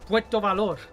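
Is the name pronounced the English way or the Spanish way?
Spanish. It is said with Spanish-style vowels and consonants. The speaker calls it right. "It's uh"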